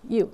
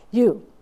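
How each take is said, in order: First: Said in the usual way. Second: A loud, sharp call of one word; mock shout. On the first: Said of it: "and he says". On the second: Crew chief calling her out over the helicopter noise, loud.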